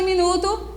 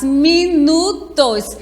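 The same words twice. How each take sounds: First: Said in the usual way. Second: "minutos" slowly as mi-nu-tos; syllable by syllable. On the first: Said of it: "Quantas sílabas tem minuto?". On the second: Shown as a demonstration. Teacher shows pupils three syllables, "minutos" split up slowly. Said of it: "aparecendo três sílabas".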